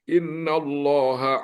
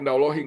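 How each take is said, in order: First: The word ends with an a vowel. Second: The word ends with an i vowel. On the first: The speaker calls it right. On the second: The speaker calls it wrong. "nggak boleh"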